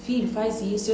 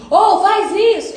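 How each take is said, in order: First: Softer and tender; a quiet fatherly word; soft voice of God. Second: Higher, louder, slow yell across the street; a loud called-out command; shouting. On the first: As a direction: say it gently, close and calm. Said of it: "Ele vai continuar dizendo". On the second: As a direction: bark the order from far away. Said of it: "ele não vai gritar e falar assim". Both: Pretend.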